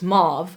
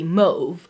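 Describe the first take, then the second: First: The word is said with an American pronunciation. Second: The word is said with a British pronunciation. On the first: "that's the American pronunciation" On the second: "British pronunciation would be mauve"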